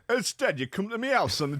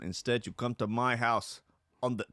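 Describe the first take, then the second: First: It is said in an imitated gangster character voice. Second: It is read in a plain, normal speaking voice.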